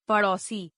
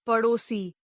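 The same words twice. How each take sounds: First: पड़ोसी with open "au" for "o"; mispronounced. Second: Said in the usual way. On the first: Shown as a demonstration. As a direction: say पड़ोसी as "padausi". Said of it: "अशुद्ध". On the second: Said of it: "शुद्ध".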